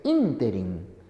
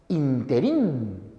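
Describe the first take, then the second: First: The stress falls on the first syllable. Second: The stress falls on the last syllable. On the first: The speaker calls it right. "la palabra correcta es ínterin" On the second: The speaker calls it wrong. "no se debe decir interín"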